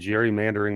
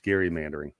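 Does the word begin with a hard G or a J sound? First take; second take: J sound; hard G. First: The word begins with a soft j sound. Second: The word begins with a hard g sound. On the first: The speaker calls it wrong. "I've been saying gerrymandering my whole life" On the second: The speaker calls it right. "but it is gerrymandering"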